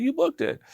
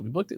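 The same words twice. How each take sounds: First: "booked it" high-pitched, falling at the end; high imitated "You booked it", as a settled statement; retold confirmation. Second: "booked it" as a rising question; mildly surprised "booked it?", tone rising at the end; retold disbelief. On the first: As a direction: confirm "booked it" in a much higher voice. Retold confirmation of casting news. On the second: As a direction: ask "booked it" in mild disbelief. Retold surprise at casting news.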